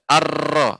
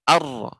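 First: The r is trilled with many vibrations. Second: The r is trilled with few vibrations. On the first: The speaker calls it wrong. "tidak arro" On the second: The speaker calls it right. "akan tapi arro ... Getarannya itu sedikit"

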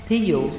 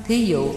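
Both takes have the same delivery.

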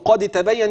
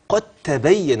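First: The d is pronounced separately before the t. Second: The d merges fully into the following t. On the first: The speaker calls it wrong. "برضو قد تبين ينفع؟" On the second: The speaker calls it right. "أيوة من القاف للتاء"

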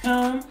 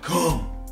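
First: It is said in a soft voice. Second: It is said in a deep voice.

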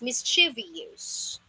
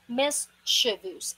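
First: It ends with an extra 'ee-us' syllable. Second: It ends with a short 'vus' syllable. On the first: The speaker calls it wrong. "Parang continuous. It's wrong" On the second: The speaker calls it right. "It's pronounced as mischievous"

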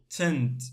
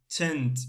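No difference in how they are said.

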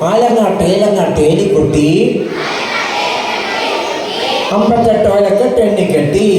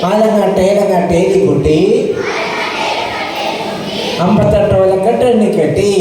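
No difference in how they are said.

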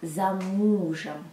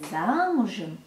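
First: The stress falls on the second syllable. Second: The stress falls on the first syllable. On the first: Being behind one's husband. "я намеренно не ставлю ударение на первый слог «за»" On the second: Being married. "То есть не замужем"

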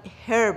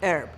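First: The word starts with an audible h sound. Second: The word starts with a vowel, no h. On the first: The speaker calls it wrong. "همه فکر میکنن herb" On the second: The speaker calls it right. "ولی در واقع تلفظش میشه herb"

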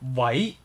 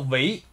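First: The word is pronounced as in Cantonese. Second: The word is pronounced as in Mandarin. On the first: "当然我们粤语呢是喂" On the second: "如果我们普通话我们说喂"

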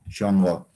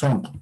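First: The word starts with an sh sound. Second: The word starts with an s sound. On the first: This is the Cajamarca variety. "en la variedad Cajamarca van a decir shongo" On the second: This is the local southern variety. "nosotros aquí decimos sonco"

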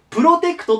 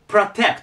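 First: The first vowel is a full Japanese 'o'. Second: The first vowel is a reduced, 'a'-like sound. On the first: The speaker calls it wrong. "プロテクトと言いたいんですけど" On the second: The speaker calls it right. "最初がa に近い、protect と言います"

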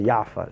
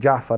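First: The name begins with a y sound. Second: The name begins with a j sound. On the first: The speaker calls it wrong. "they don't have the letter like jim, they say yafar" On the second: The speaker calls it right. "Instead of saying like jafar"

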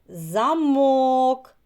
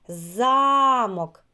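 First: The stress is on the second syllable. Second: The stress is on the first syllable. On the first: "А в слові замок який наголошений склад? Другий" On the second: "У слові замок який наголошений склад? Так, перший"

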